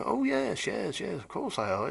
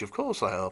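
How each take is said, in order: First: High, breezy mock voice brushing off the question; imitating James. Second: Said in the usual way. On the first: Owner James shrugging off the question, high mocking imitation. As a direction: toss off the reassurance in a lifted, too-sure voice. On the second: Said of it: "I said".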